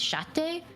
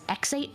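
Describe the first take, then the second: First: The name starts with a sh sound. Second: The name starts with an eks sound. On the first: This is the official pronunciation. "the official pronunciation I think is Shate" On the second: This is how the audiobook says it. "the audiobook ... says Exate for the first two books"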